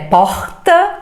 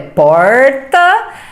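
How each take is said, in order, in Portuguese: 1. É falada com sotaque do Rio de Janeiro. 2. É falada com sotaque do interior. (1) "no Rio de Janeiro é porta" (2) "no interior é porta"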